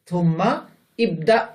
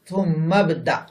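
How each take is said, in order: First: The two words are separate, the vowel pronounced. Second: The words are linked, the vowel dropped. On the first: The speaker calls it wrong. "থুম্মা ইবদা না" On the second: The speaker calls it right. "মিলিয়ে পড়লে উচ্চারিত হয় না"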